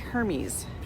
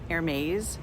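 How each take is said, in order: First: The name does not sound like the French brand. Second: The name sounds like the French brand name. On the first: "it could be Hermes" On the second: "pronounced the French luxury brand Hermès"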